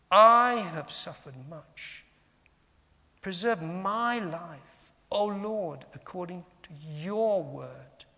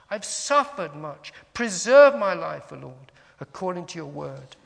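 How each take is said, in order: First: Long loud "I", then weight on "my" and "your"; slow, spaced reading punching "I", "my", "your"; stress on pronouns. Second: "suffered" and "Preserve" punched loud; stress on verbs. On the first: Teacher has listeners reflect on pronouns, stressing "I", "my", "your". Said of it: "emphasizing the yous, the yours, the my's". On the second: Teacher shows another reading of the psalm, stressing "suffered" and "Preserve". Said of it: "Or we can say". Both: Shown as a demonstration.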